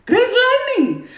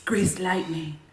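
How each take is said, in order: First: High, loud and slow, breaking into a laugh; loud high exclamation with a laugh; loud laughing belt. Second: Breathy hushed whisper of the title; low unvoiced whisper. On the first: Acted. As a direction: belt it out then crack up. Belting song title with laugh. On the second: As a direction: whisper it like a secret. Teasing whisper of song title.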